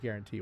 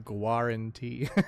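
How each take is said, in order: First: The word is said with its ordinary pronunciation. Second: The word is sounded out the way it's spelled. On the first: It is the usual way of saying the word. "But I say guarantee when I read it" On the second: It is a memory aid for the spelling. "In my head, I say guarantee... I remember how to spell it just by saying it like that"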